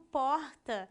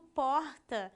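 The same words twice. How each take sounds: First: The R is in Rio de Janeiro style. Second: The R is in Rio de Janeiro style.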